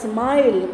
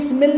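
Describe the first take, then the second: First: The vowel is a long 'eye' sound. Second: The vowel is a short 'i' as in 'it'. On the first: The speaker calls it right. "ये आई की sound आई की तरह है" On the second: The speaker calls it wrong. "स्मिल नहीं बोला जाता"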